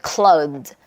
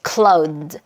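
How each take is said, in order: Both takes have the same delivery.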